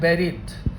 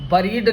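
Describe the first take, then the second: First: The first vowel sounds like the e in bed. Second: The first vowel is a short weak uh sound. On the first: The speaker calls it right. "सही उच्चारण छात्र होता है बेरिड" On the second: The speaker calls it wrong. "बरीड नहीं होता है, आधा ए नहीं आता"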